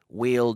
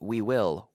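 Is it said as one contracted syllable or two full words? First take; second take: contracted; full. First: It is contracted into one syllable. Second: It is said as two full words. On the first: "with the contraction we'll"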